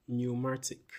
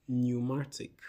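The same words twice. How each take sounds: The two takes are said the same way.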